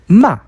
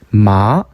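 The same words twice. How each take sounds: First: It is said with the fourth tone. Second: It is said with the second tone. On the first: It means to scold. "꾸짖다" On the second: It means a hemp plant. "산마, 식물이죠"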